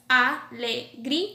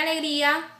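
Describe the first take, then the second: First: A-le-grí-a, slowly, syllable by syllable; alegría with pauses between syllables; alegría split into syllables. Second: Said in the usual way. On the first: Shown as a demonstration. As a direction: break alegría apart, í and a separate. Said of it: "van separadas en dos sílabas".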